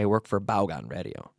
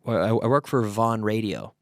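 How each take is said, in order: First: The name is pronounced the Spanish way. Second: The name is pronounced the English way. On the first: The listener speaks Spanish. "when I talk to a Spanish person" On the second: The listener speaks English. "when I talk to an English speaker"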